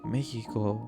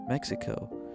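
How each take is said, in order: First: The word is said with a Spanish accent. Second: The word is said with an American English accent.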